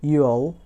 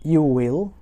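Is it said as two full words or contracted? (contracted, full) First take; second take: contracted; full. First: It is said as one contracted syllable. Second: It is said as two full words.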